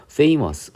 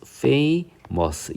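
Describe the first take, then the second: First: Said in the usual way. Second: "famous" split slowly into fa-mous; two separate syllables. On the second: Shown as a demonstration. Teacher showing a two-syllable word, "famous" broken into fa-mous. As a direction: sound out "famous" in two drawn-out beats, higher pitched. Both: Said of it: "이음절인데".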